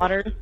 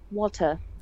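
First: It is said in a general American accent. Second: It is said in a British accent.

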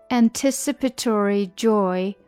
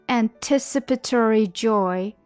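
Both takes have the same delivery.

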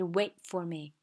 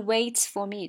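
First: The t in wait is held silent briefly. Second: The t in wait is audibly released. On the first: The speaker calls it right. "它是wait for me，wait 停顿for me" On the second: The speaker calls it wrong. "它也不是wait for me 对吧？"

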